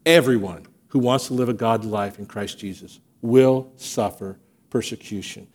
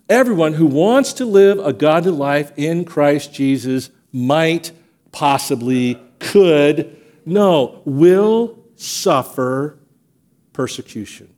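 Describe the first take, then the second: First: Said in the usual way. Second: Slow hesitant buildup. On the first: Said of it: "restated plainly". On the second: Shown as a demonstration. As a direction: hedge word by word, then land it slowly on will suffer. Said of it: "not some".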